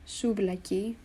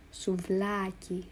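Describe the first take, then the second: First: "souvlaki" with the stress moved off the middle a; wrong stress. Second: "Souvlaki" slow, stress on the middle a; right stress, slowly. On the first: Teacher showing a wrong stress on "souvlaki". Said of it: "it's pronounced souvlaki and not". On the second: Teacher slowly modelling the right "Souvlaki". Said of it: "it's on this middle a". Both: Shown as a demonstration.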